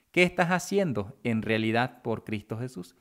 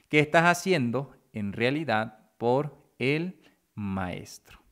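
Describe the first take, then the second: First: Said in the usual way. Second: Deliberate question with pauses between phrases; measured rhetorical challenge. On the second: Real, not acted. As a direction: space out "por el Maestro" word by word. Question repeated slowly for weight.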